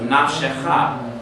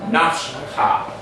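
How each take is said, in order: First: A short vowel is heard between sh and ch. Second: No vowel is heard between sh and ch. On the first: The speaker calls it right. "I'm forced to give that other letter a sound" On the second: The speaker calls it wrong. "That's what it would end up being"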